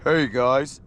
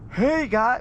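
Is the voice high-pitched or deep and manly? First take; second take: deep; high-pitched. First: It is said in a deep, manly voice. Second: It is said in a high, squeaky voice.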